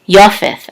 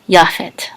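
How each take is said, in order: First: The first vowel is oh, ending in th. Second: The first vowel is ah, ending in t. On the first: This is the old pronunciation. "the ancient, more ancient pronunciation of this name would be" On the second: This is the modern pronunciation. "in modern times, we would pronounce this as Yafet"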